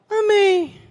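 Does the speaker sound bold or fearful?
fearful. It is said timidly, sounding scared to death.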